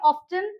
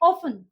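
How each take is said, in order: First: The t sound is pronounced in the middle. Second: The t sound is left out entirely. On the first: "कई लोग pronounce करते हैं ऑफ्टन" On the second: "कई इसको pronounce करते हैं ऑफन"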